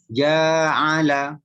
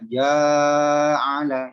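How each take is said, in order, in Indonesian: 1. Suku kata pertama ditahan selama satu ketukan. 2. Suku kata pertama ditahan terlalu lama. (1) "Harusnya cuma satu ayunan" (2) "itu kan kepanjangan janya"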